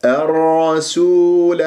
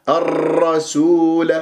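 First: الرسول slow, doubled ra held without rattling; hidden trill. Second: الرسول with a long repeated rolled r; over-trilled ra. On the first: Teacher models for students, untrilled doubled ra in الرسول. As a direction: hold the r in الرسول, hiding its repetition. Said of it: "وأخفي تكريرا إذا تشدد الراء". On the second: Teacher shows students the error, trilled الرسول. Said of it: "أكرر". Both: Shown as a demonstration.

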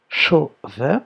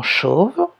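First: "chauve" in two beats, CHAU then VE; "chauve" pulled apart, the last syllable fully said; split into syllables. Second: Said in the usual way. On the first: Shown as a demonstration. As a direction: sound out "chauve" with a gap and a voiced final VE. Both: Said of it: "première syllabe".

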